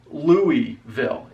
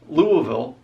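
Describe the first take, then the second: First: "Louisville" as LOO-ee-vil; standard pronunciation. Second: "Louisville" as LOO-uh-vil; Southern mumbled pronunciation. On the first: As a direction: clear EE in the middle of "Louisville". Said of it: "even if you were saying". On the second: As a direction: blur the middle of "Louisville" to UH. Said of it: "almost like you have to pronounce". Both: Shown as a demonstration.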